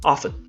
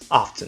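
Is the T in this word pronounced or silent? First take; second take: silent; pronounced. First: The T sound is silent in the middle. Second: The T sound is pronounced in the middle. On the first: "the definitely correct way" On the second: "you would be alright if you pronounce it as often"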